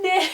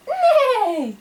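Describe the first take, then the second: First: Short, feeble horse neigh; half-hearted little neigh; weak neigh. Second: High whinny falling at the end; horse neigh. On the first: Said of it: "That was weak". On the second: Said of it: "Can you do this?". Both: Shown as a demonstration.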